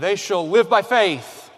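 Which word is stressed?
faith. The stress falls on the word faith.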